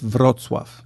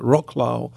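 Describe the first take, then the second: First: The name is said with a native Polish pronunciation. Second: The name is said with an American English pronunciation. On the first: The speaker calls it right. "It's Wrocław" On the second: The speaker calls it wrong. "Americans sometimes say Wrocław"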